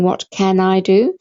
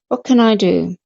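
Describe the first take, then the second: First: Each word is said separately and fully. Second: The words are merged and sounds are dropped. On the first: "this is how we all learn to read" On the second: "let's say it as though we're speaking it"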